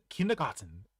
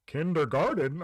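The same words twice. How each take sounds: First: Kindergarten said the German way, r-less with crisp t; German pronunciation. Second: Imitated English-accented "Kindergarten", raised pitch. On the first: Retold or imitated. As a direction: say "kindergarten" with a German accent, no r sounds. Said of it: "we have it in German". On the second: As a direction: say "Kindergarten" the English way, both r sounds voiced. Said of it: "Just say it with an English accent".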